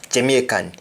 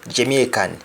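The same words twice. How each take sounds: Both takes have the same delivery.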